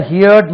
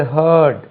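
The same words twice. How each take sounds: First: "ஹியர்ட்" said like HEAR with a d on the end; wrong HEARD pronunciation. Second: "ஹர்ட்" said like herd, one long vowel; correct HEARD pronunciation. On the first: Teacher showing how the spelling misleads, mispronounced "ஹியர்ட்" as hee-urd. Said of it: "இதை பார்த்தா ஹியர்ட் மாதிரி இருக்கு". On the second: Teacher correcting the class's reading of heard, "ஹர்ட்" pronounced exactly like herd. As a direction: say "ஹர்ட்" as hurd, no ee glide. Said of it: "ஆனா இது ஹர்ட்". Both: Shown as a demonstration.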